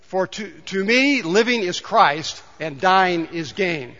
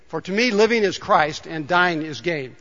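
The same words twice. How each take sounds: First: Slow, measured scripture reading; slow reading together. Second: Said in the usual way. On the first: Shown as a demonstration. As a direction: read each phrase slowly, in step with the congregation. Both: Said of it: "Let's read it together".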